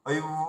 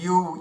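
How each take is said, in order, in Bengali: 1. এটি দাঁত ও ঠোঁটের মাঝে একটি গ্লাইড দিয়ে শুরু হয়। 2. এটি সাধারণ 'yu', এতে কোনো ঠোঁটের গ্লাইড নেই। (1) "এভাবে যদি মুখে সেটিং করা যায় দারুণ উচ্চারণ হবে" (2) "বেশিরভাগই ইউ, ইউ এভাবে আমরা বলি"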